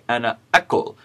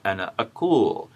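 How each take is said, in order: First: The vowel in the verb is short. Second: The vowel in the verb is long. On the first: The speaker calls it right. "We say ana akul" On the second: The speaker calls it wrong. "not ana akul, because we have a long vowel in our verb"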